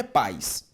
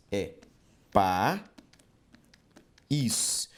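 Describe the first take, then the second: First: Paz as a single syllable, pais; wrong pronunciation. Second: País broken into pa, long pause, ís; país in two beats, the ís standing alone; syllable split. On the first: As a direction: glide the vowels of paz into one quick pais. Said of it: "a palavra não é paz". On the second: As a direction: sound out país slowly as two separate syllables. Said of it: "na separação silábica". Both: Shown as a demonstration.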